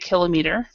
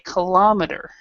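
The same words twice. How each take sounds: First: The stress is on the first syllable. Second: The stress is on the second syllable. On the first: "in British English they stress the kilo" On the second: "our stress is on this O"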